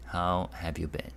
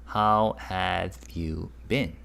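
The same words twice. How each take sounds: First: Said in the usual way. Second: How have you been? spoken slowly; slow clear demo. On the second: Shown as a demonstration. Teacher slowly translating for students. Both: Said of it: "And it means what?".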